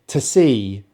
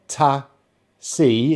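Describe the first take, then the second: First: The two words run together smoothly. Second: The two words are said separately. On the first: The speaker calls it right. "So they're kind of joining together" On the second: The speaker calls it wrong. "it's not ta, see"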